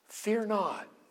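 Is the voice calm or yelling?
calm. It is said softly and calmly. It is a gentle invitation. The speaker calls it right. "I think it's more calm. I think it's an invitation"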